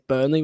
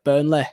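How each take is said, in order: First: It ends with a clear 'ee' sound. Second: It ends with a local 'le' sound.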